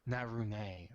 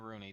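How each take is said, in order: First: The name is pronounced in a more exotic way. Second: The name is pronounced in a plain, ordinary way. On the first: This is how some other people say it. "some people pronounce it more exotically" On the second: This is how the speaker says it. "I pronounce it Naruni too"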